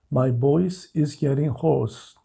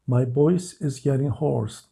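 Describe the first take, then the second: No difference in how they are said.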